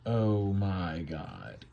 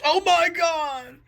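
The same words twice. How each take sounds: First: Slow, low, hushed dread; stunned angels. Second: High, slow, hammed-up wail; mock anguished shout. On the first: Acted. Angels see a flurry of arrows, stunned. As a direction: draw it out quietly, stunned. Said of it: "they go". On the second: God wounded by an arrow, hammed-up shout. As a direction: cry out long and high in mock agony. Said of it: "the God shouts".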